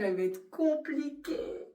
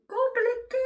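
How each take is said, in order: First: Said in the usual way. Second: "Compliquée" jumped way up high and louder, a comic squeal; squeaky high mock wail. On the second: Shown as a demonstration. Vlogger dreading her first night alone, comic high squeal. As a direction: echo "Compliquée" as a much higher, louder, whiny squeak.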